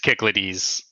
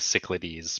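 First: The word begins with a hard K sound. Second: The word begins with a soft S sound. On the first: The speaker calls it right. "that one actually is Kicklades, I'm pretty sure" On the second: The speaker calls it wrong. "but that's wrong"

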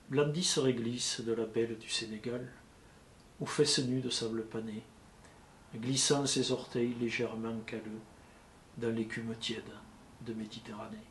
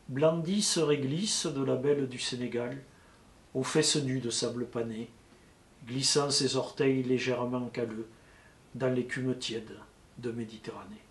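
First: It is read flat and fairly softly. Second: It is read flat and somewhat louder.

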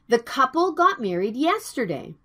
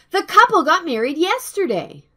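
First: The sentence is said at normal pace and volume. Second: The sentence is said quickly and in a loud voice. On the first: "Please listen and repeat after me" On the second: "Speak it faster in a loud voice, please"

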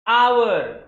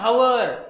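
First: The word begins with a vowel sound. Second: The word begins with an h sound. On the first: The speaker calls it right. "It's आवर" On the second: The speaker calls it wrong. "It's not हावर"

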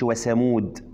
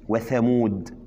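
First: The consonant is a hissing s sound. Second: The consonant is a th with tongue out. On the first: The speaker calls it wrong. "ما تقولش" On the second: The speaker calls it right. "ده الثاء"

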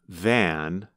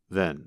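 First: The vowel is a full 'a' sound. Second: The vowel is reduced to a schwa. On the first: "instead of the sound, a" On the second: "you hear a reduced vowel, the schwa"

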